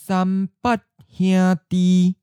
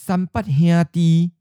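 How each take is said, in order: First: It is said slowly and carefully. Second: It is said at a natural, normal speed. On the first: "and then slowly" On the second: "First natural speed"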